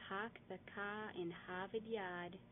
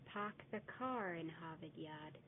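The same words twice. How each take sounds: First: "Park the car in Harvard Yard" slow with no R sounds, "Pahk the cah"; a slow, R-less mockery version of the phrase; mock Boston accent, R dropped. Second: "Park the car in Harvard Yard" slow, "car in" rolled together as "carin"; slow, careful Boston version linking "car" into "in"; correct Boston accent, linked R. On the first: Teacher showing the wrong mocking version of the phrase, slow and R-less. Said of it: "is wrong". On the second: Teacher giving the correct Boston pronunciation, slow and careful. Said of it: "The correct pronunciation would be".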